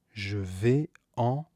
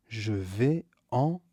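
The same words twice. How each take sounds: The two takes are said the same way.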